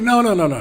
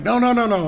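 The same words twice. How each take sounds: First: High, loud hurried no's; flustered denial. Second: High, loud rapid no's, overeager; loud, much higher burst of protest; flustered denial. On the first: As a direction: protest too much that you're awake. Pretending he wasn't asleep again. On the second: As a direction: insist you're wide awake, too eagerly. Pretending he wasn't asleep. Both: Retold or imitated.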